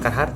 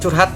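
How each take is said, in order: First: The name is said as 'Carhartt'. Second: The name is said like 'curhat'. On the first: This is the proper pronunciation. "betul pengucapannya Carhartt" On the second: This is how people commonly say it. "atau biasa yang bilang curhat"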